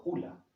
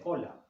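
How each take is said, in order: First: "hula", with u in place of o; mispronounced hola. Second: Said in the usual way. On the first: Shown as a demonstration. Adult correcting a child's word, mispronounced as "hula". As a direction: say "hula", the first vowel wrongly closed to u. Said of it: "se dice hola, no hula". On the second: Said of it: "se dice hola".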